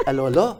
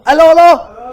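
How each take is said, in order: First: Said in the usual way. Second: Loud, high burst of recognition; excited exclamation. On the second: Real, not acted. Host remembering the sitcom's title, excited exclamation. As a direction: call it out excitedly, pitched right up.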